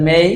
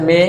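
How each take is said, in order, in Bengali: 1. স্বরধ্বনিটি e থেকে i-এর দিকে গড়িয়ে যায়। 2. স্বরধ্বনিটি একটি সরল, স্থির e ধ্বনি। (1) "রাইট প্রনাউন্সিয়েশন মেই" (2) "ভুল উচ্চারণ আছে মে"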